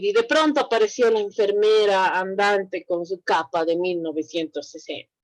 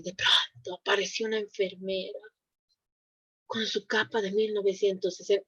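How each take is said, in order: First: Said in the usual way. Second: Hushed, suspenseful storytelling voice, much softer; storyteller hush. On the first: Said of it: "no voy a decir". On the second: Shown as a demonstration. Teacher performing a horror tale for the class, hushed suspense. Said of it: "es diferente la entonación que yo manejo".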